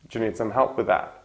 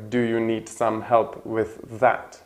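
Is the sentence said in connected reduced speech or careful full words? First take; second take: reduced; careful. First: The words are reduced and run together. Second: Each word is said fully and separately.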